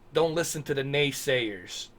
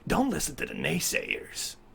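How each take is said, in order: First: It is said in his normal voice. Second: It is said in a put-on snake voice.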